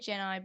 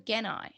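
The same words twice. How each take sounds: First: The name begins with a soft G sound. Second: The name begins with a hard G sound. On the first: This is the version the speaker learned first. "you always say Genai anyway" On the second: This is how the original version says it. "he pronounces it like the original does with a hard G"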